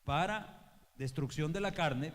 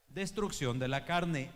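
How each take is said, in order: First: Destrucción de la carne said slowly with weight; emphatic slow preacher's repeat. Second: Destrucción drawn out and loud; preacher's heavy stress on destrucción; slow heavy stress on destrucción. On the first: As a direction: spell out la carne deliberately. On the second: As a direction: lean hard on destrucción, slowly. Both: Acted.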